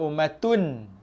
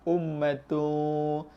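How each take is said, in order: First: The n sound is pronounced fully and clearly. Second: The n sound is hidden and blurred. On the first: The speaker calls it wrong. "Jangan ummatun. Ummatun jelas" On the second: The speaker calls it right. "Ikhfa ummatu tu. Ah, dia bunyi macam sama-sama sikit"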